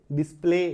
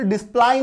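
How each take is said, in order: First: डिस्प्ले said "dis-play", ending in a long "ay"; correct pronunciation. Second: डिस्प्ले misread as "dis-plai", ending like "eye"; wrong pronunciation. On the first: Teacher gives learners the right reading, डिस्प्ले as "dis-play". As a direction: end डिस्प्ले on an "ay" sound, silent Y. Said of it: "ए जैसा आएगा". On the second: Teacher shows learners the misreading, डिस्प्ले said as "dis-plai". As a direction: end डिस्प्ले in an "ai" sound, as in "pie". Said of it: "इससे डिस्प्ले नहीं पढ़ेंगे". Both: Shown as a demonstration.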